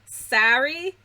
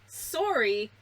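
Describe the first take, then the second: First: It is said with an American accent. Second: It is said with a Canadian accent. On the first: "Americans say" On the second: "Canadians say"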